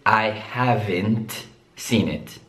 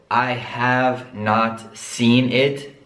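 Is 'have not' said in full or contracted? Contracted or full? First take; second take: contracted; full. First: Have and not merge into one word. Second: Have and not are said as separate words.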